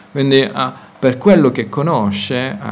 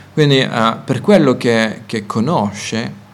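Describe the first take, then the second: Both takes have the same delivery.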